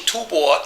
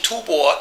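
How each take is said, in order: First: The second syllable is pronounced bo. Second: The second syllable is pronounced bo.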